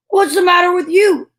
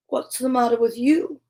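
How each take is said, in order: First: Higher and louder donkey question. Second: Said in the usual way. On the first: Shown as a demonstration. Reader corrects herself, donkey asks the cat. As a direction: redo it in the donkey's voice.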